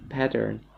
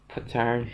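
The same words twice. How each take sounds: First: "Pattern" redone with an open "a" as in "cat"; "Pattern" said carefully, the first syllable "pat"; corrected pronunciation. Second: "pattern" said quickly with a flat, unclear first vowel; "pattern" with a reduced "puh" start; first try at pattern. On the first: Shown as a demonstration. Streamer correcting her accent on the word, careful "Pattern". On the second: Real, not acted. Streamer stumbling over a word before fixing it, loose "pattern". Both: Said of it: "accent is really important".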